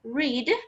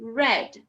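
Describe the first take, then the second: First: The vowel sounds closer and narrower. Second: The vowel sounds more open. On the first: It is the present tense. "O presente fica read" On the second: It is the past tense. "o passado fica read. O som fica mais aberto"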